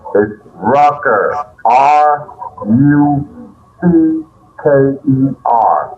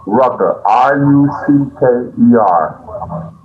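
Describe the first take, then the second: First: The name and letters come slowly. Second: The name and letters come at normal speed.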